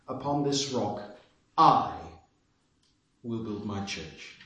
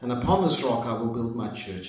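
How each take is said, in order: First: The word 'I' is given strong stress. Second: The word 'I' is not given special stress.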